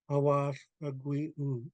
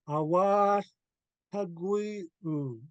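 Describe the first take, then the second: First: It is said softly and flatly, without energy. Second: It is said loudly, clearly and with strong feeling. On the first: The speaker calls it wrong. "I said it without pouring my spirit into it" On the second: The speaker calls it right. "enunciated, um, louder, and with pouring your spirit into it"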